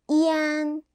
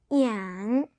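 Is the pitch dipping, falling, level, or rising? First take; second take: level; dipping. First: The pitch stays high and level. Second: The pitch dips low then rises.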